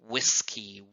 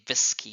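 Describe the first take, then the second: First: The first sound is made with rounded lips. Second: The first sound is made without rounded lips. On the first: The speaker calls it right. "you say world, whiskey" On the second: The speaker calls it wrong. "You don't say whiskey"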